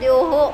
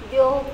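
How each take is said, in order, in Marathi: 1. शेवटचा 'h' स्वराच्या प्रतिध्वनीसह जोर देऊन उच्चारला जातो. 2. शेवटचा 'h' आवाज लहान आणि हलका आहे. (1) "जर तो शेवटला आला असता तर द्योहो असं म्हणतात" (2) "जे मध्ये आले त्याला, जास्त जोर दिला जात नाही"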